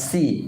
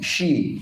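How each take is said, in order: First: The consonant is a plain hissing s sound. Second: The consonant is a hushing sh sound. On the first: The speaker calls it wrong. "Bukan si" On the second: The speaker calls it right. "she ya. Shin ya"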